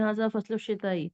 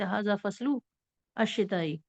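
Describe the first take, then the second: First: All three words run together without pause. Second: The phrase is broken up with a pause. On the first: The speaker calls it right. "तीनों को एक साथ पढ़ दें" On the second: The speaker calls it wrong. "ऐसे नहीं पढ़ सकते"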